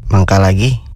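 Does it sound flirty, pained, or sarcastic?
sarcastic. It is said in a sarcastic tone.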